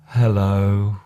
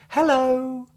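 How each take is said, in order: First: It is said in a low, sad tone. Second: It is said in a cheerful, happy tone. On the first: "or a sad hello" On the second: "A happy hello"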